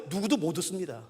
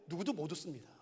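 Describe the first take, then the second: First: Said in the usual way. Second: 누구도 못 웃습니다 said much softer, almost under the breath; hushed statement. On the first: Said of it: "근데 여러분 아세요?". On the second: Shown as a demonstration. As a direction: drop right down and let it land. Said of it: "근데 아세요?". (아주 작게 가라앉힌 목소리로)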